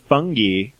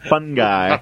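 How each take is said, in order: First: Fungi is said so it rhymes with funky. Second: Fungi is said with its usual pronunciation. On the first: "I just said it that way to make it rhyme" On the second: "I know how to pronounce fungi"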